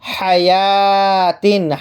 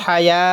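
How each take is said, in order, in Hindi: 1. शब्द का अंत -tin की आवाज़ से होता है। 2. शब्द का अंत हल्की h आवाज़ से होता है।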